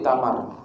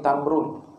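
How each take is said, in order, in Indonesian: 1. Kata ini berakhir tanpa bunyi 'un'. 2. Kata ini berakhir dengan bunyi 'un'. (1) "Jadi kita wakaf jadi tamar"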